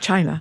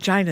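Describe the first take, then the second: First: The word is said in the ordinary pronunciation. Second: The word is said in an imitated, unusual pronunciation. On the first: This is how it is normally said. "instead of China" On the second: This is how the politician says it. "Why does he say China"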